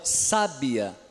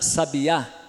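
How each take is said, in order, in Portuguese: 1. O acento está na primeira sílaba. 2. O acento está na última sílaba. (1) "o forte vai ser o sa" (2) "aqui vem antes do a"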